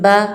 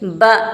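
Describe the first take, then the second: First: The syllable is said smoothly, without a jolt. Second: The syllable is said with an abrupt jolt. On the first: The speaker calls it right. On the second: The speaker calls it wrong.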